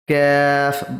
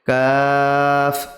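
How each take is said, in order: First: The word is said in a distorted, unclear way. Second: The word is said clearly and distinctly. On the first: The speaker calls it wrong. "এভাবে বাক্যে দেওয়া যাবে না" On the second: The speaker calls it right. "স্পষ্টভাবে"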